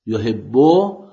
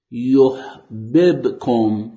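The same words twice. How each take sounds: First: یحبو with one held doubled b: yuhibbu; merged doubled b. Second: یحببکم slowly, both b's split apart: yuh-bib-kum; separated doubled b. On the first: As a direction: say یحبو with the b geminated, rising at the end. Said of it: "اون بای مشدد". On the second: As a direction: drag out یحببکم so each ب is heard on its own. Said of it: "اون بای مشدد ادغامش فک شده و جدا شده". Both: Shown as a demonstration.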